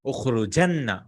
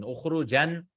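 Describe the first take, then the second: First: "Ukhrujanna" with a held double n before the final a; doubled noon. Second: "Ukhrujan" ending on one n, no vowel after it; single final noon. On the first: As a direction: lean on the long nn in "Ukhrujanna". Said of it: "add a double noon". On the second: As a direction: close "Ukhrujan" on a final "jan", rising. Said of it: "add just one noon". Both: Shown as a demonstration.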